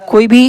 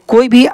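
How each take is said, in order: The two takes are said the same way.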